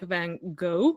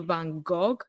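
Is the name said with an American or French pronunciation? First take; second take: American; French. First: It is said with an American pronunciation. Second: It is said with a French pronunciation.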